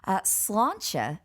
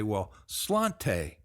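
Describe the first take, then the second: First: "sláinte" as SLAWN-cha, slow and clear; Irish pronunciation. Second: Put-on Irish word in a slow American accent; "sláinte" drawn out American style, ending slawn-tay. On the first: Shown as a demonstration. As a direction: model "sláinte" ending in a cha sound. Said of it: "most common pronunciation in Ireland". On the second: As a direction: say sláinte the Texas way, slowly. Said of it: "I prefer to call that American accent".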